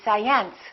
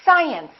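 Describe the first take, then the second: First: The stress is on the second syllable. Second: The stress is on the first syllable. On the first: The speaker calls it wrong. "If this mark were located over here" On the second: The speaker calls it right. "we say science"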